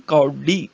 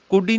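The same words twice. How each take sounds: First: ਕੌਡੀ with open au; correct vowel shown. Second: ਕੋਡੀ with a close o; wrong vowel shown. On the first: Teacher correcting students, ਕੌਡੀ with au. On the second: Teacher showing the misreading, ਕੋਡੀ with oh. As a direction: say ਕੋਡੀ with rounded oh. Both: Shown as a demonstration. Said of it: "ਕੋਡੀ ਨਹੀਂ, ਕੌਡੀ".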